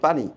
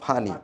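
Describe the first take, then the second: First: The word begins with a p sound. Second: The word begins with an f sound. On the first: "আমরা ঢাকার আশেপাশে যারা আছি তারা বলি পানি" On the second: "কুমিল্লাতে বলে এটা ফয়ের মতো ফানি"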